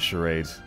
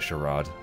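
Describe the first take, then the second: First: The word is said in a plain, everyday way. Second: The word is said in a posh, refined way. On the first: "Or is it charade?" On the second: "if you want to be posh, you can call it a charade"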